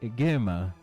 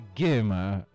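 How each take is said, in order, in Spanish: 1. Las palabras se fusionan en una forma corta. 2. Las palabras se fusionan en una forma corta.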